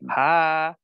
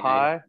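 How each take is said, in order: First: The vowel is long and drawn out. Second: The vowel is short and clipped. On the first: "the Southern draw ... Everything drawn out" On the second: "instead of"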